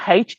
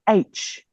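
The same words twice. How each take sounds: First: The letter is said in the home accent. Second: The letter is said in the school accent. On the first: The speaker calls it wrong. "it's not H" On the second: The speaker calls it right. "You should know how to pronounce it properly"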